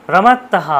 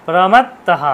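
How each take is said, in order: The two takes are said the same way.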